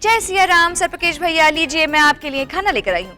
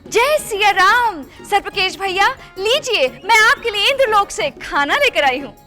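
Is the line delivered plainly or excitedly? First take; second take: plainly; excitedly. First: It is said in a plain, simple way. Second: It is said in an excited, grand way.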